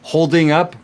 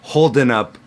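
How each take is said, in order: First: Holding ends with a full 'ng' sound. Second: Holding ends with a plain 'n' sound. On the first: "full form" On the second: "when we drop that G"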